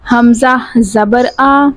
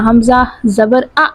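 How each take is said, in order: First: The vowel is said calmly without any jerk. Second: The vowel is cut off with an abrupt jerk. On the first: The speaker calls it right. "हमने आराम से पढ़ना है" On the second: The speaker calls it wrong. "ऐसे नहीं कहना"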